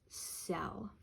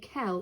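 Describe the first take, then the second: First: The word begins with a soft S sound. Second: The word begins with a hard K sound. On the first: The speaker calls it right. "it says cell" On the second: The speaker calls it wrong. "This does not say kel"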